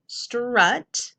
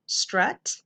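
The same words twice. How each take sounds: First: "strut" broken into str and ut; sounded out. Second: Said in the usual way. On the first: Shown as a demonstration. Teacher decoding a syllable for pupils, sounded out in parts. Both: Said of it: "a syllable".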